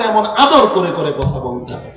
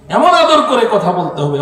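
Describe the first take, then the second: First: Tender, soft. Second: Said in the usual way. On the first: Shown as a demonstration. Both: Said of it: "নরম স্বরে নিম্ন আওয়াজে".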